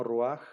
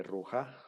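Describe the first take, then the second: First: RUAJ with the A before the final J; patak furtivo. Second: RUJÁ with the J before a final stressed A; orden no furtivo. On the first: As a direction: end ruaj on the consonant, ru-AJ. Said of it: "No es lo mismo ruaj". (ruaj con la A antes de la J final) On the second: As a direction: end rujá on an open vowel, ru-JA. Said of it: "sí cambia. No es lo mismo". (rujá con la J antes de la A final) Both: Shown as a demonstration.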